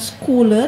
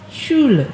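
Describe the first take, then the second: First: The first sound is not sh. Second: The first sound is sh. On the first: The speaker calls it wrong. "bukan Schule" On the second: The speaker calls it right. "kita baca sh"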